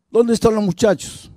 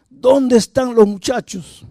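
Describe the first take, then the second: First: Pregunta brusca en tono agudo, sin gritar; exigencia imitada. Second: Pregunta lenta, muy aguda e insistente; exigencia furiosa actuada. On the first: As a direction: imita a un padre que exige respuesta. Padre violento exige respuesta a esposa. (interrogatorio actuado, tono alto y volumen contenido) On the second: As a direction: imita a un padre furioso, marcando despacio cada palabra. Repite la exigencia con más fuerza. (exigir alzando mucho el tono, despacio) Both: Retold or imitated.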